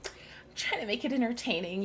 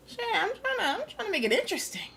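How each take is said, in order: First: Said in the usual way. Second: Pitched up way high, whiny defence; mock high defensive voice. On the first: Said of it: "You're pretty freaking funny". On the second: Real, not acted. Streamer defends his funny voices, squeaky high. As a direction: squeak it out in protest. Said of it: "I'm giving them the voices".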